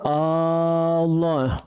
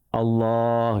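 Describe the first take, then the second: First: The opening vowel is drawn out long. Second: The middle vowel is drawn out long. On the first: It becomes a question doubting God's greatness. The speaker calls it wrong. "Ketika kita panjangkan A-nya tuh" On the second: It is a statement about God. The speaker calls it right. "Yang dibaca panjang itu lafaz Allah"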